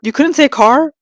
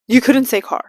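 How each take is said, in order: First: Incredulous question. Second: Deadpan statement. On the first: Mocking the four-wheel-drive line. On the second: Repeats as flat statement. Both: Real, not acted.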